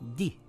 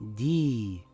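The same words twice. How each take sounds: First: The vowel is held for one count. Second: The vowel is held for two counts. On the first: The speaker calls it wrong. "and not di" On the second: The speaker calls it right. "it will read di"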